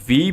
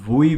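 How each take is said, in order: First: The word begins with a V sound. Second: The word begins with a W sound. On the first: "इसको वी भी बोला जाता है" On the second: "वुई भी बोला जाता है"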